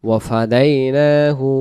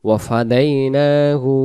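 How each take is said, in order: Both takes have the same delivery.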